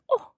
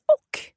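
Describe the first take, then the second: First: "oh" said fast, dropping the ch; quick oh. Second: "och" said fully, with the ch sound; careful och. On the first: Teacher shows the fast spoken "oh". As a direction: clip "och" down to "oh". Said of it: "when I speak quickly, I say". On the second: Teacher gives the full form of "och". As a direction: spell out "och" clearly for the learner. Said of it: "the word for "and" is "och". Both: Shown as a demonstration.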